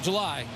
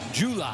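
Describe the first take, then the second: First: It is said the standard way. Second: It is said the Tennessee way.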